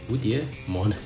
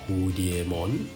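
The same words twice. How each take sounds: First: It is said with Mandarin Chinese tones. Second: It is said with plain English intonation. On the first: The speaker knows the Chinese word. "you wouldn't know the intonation of the Chinese word" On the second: The speaker does not know the Chinese word. "the way most people would pronounce this"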